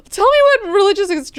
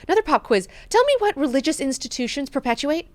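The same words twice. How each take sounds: First: Much higher and faster, hammed-up quizzing; pushier mock Leto. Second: Higher, mock-imperious quizzing voice; mock Leto quiz. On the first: God Emperor pressing Mineo again, higher and rushed. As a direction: rush the demand, ramping it up. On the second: God Emperor demanding an answer from Mineo, mock-imperious. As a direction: play the god-emperor testing him.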